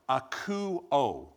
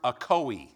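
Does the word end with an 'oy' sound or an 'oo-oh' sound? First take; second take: oo-oh; oy. First: The word ends with an 'oo-oh' sound. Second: The word ends with an 'oy' sound. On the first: The speaker calls it right. "let me say this right, akuo. That's the right pronunciation" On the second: The speaker calls it wrong. "It is the Greek word akoi"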